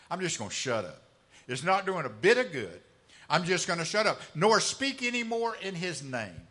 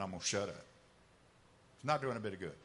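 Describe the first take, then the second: First: Louder, fed-up declaration; frustrated outburst. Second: Resigned, quiet. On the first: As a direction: throw the words out, sick of it all. Preacher voices discouraged Jeremiah. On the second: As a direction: lower and softer, giving up. Same vow repeated, resigned. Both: Acted.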